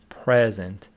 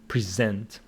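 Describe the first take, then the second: First: The stress is on the first syllable. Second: The stress is on the second syllable. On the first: It is used as an adjective. "If it is an adjective, it is present" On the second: It is used as a verb. "Present is a verb, so the stress is on the second syllable"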